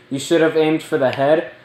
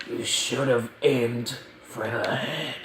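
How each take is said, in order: First: Said in the usual way. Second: Soft, slow put-on villain voice; a kid's slow, quiet try at a menacing villain line; Thanos voice. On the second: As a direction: hush it and slow it down like the big bad villain. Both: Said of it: "I'm just not gonna talk like that".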